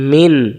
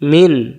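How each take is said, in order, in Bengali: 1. শেষ স্বরটি বাদ যায়, তাই ব্যঞ্জনে শেষ হয়। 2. শেষ স্বরটি বাদ যায়, তাই ব্যঞ্জনে শেষ হয়।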